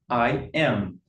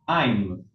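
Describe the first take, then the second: First: Both words are said in full, separately. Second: The two words merge into one syllable.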